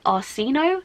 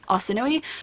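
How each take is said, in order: First: The name is said in a French-like way. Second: The name is said in the original Greek way. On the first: This is how the author says it. "more of like a French pronunciation" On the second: This is the original form of the name. "the original like Mediterranean Greek Arsinoe"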